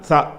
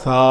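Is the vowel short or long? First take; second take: short; long. First: The vowel is short. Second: The vowel is drawn out long. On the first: "படுக்க வசமாக கோடு போட்டாங்கன்னா" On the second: "நிற்கிற வசமாக அப்படி கோடு போட்டாங்கன்னா"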